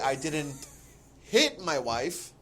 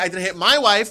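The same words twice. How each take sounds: First: The word hit carries the main stress. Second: The word wife carries the main stress. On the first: Something else was done to her. "maybe you did something else to your wife" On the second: Somebody else was hit. "hit somebody else"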